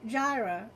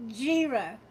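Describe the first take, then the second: First: "Jira" with an EYE vowel, JY-ruh; "Jira" tried out with first syllable like "eye"; second pronunciation attempt. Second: "Jira" with a long EE, JEE-ruh; "Jira" tried out as JEE-ruh; first pronunciation attempt. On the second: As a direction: say "Jira" to rhyme with "era" as EER-uh. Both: Shown as a demonstration. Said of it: "already getting it wrong".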